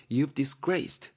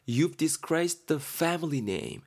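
First: Drawn out with a rising end; slow echo of the phrase; slow repeat. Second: Very slow, every word drawn out; slow mock-reproachful delivery; slow stern example. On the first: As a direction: repeat it slowly as a check. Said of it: "가문이라고 생각하시면". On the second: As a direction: lay it out slowly like a scolding parent. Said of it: "A가 말하죠". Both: Shown as a demonstration.

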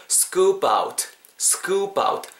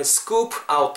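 First: "scoop out" run together as skoo-pout; linked sounds. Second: "scoop out" as two separate words; unlinked words. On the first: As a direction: carry the p of scoop into "out", pitched higher. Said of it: "붙으면서". ("scoop out"을 '스꾸빠웃'으로 붙여서) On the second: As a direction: leave a small break between "scoop" and "out". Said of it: "scoop의 P 사운드랑 out의 O가". ("scoop out"을 두 단어로 떼어서) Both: Shown as a demonstration.

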